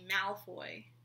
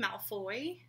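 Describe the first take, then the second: First: The stress is on the first syllable. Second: The stress is on the last syllable. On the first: This is the familiar way to say it. "I'm so used to it being Malfoy" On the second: This is how a particular narrator says it. "Like he says with the emphasis on the foy"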